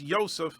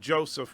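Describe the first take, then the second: First: The name is said with a non-English pronunciation. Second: The name is said with the English pronunciation.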